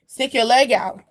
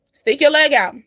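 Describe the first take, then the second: First: Said in the usual way. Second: Louder, higher push on the phrase; emphatic urging. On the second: Shown as a demonstration. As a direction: urge it out loud like a hype coach. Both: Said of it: "time for you to stick your leg out".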